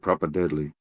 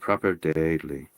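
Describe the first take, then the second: First: It is said in an Aboriginal Australian accent. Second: It is said in an imitated Irish accent.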